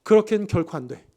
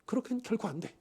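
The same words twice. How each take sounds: First: 그렇게는 stressed in a firm, commanding refusal; dictatorial. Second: Softly repeated refusal; quiet repeat. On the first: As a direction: bark out 그렇게는 결코 안 돼 as a final order. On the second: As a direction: drop the voice for the second 그렇게는. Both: Acted. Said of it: "아주 단독지식적으로 이야기를 하고 있어요".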